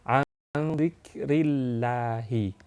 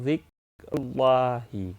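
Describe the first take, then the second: First: The r is light, followed by an i vowel. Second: The r is heavy, followed by a u vowel. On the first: The speaker calls it right. "Jadi tipis" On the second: The speaker calls it wrong. "itu keliru"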